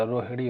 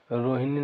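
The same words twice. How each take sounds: First: "रोहिणी" with a retroflex flapped n; correct pronunciation. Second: "रोहिणी" with a dental n; wrong pronunciation. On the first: Teacher gives the proper form, "रोहिणी" with retroflex ṇ. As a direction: say "रोहिणी" as ro-hi-ṛee, tongue curled back. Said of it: "होता है". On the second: Teacher shows what it is not, "रोहिणी" with plain n. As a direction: say "रोहिणी" as ro-hi-nee, tongue at the teeth. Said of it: "नहीं होता". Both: Shown as a demonstration.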